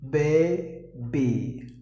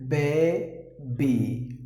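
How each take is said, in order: The two takes are said the same way.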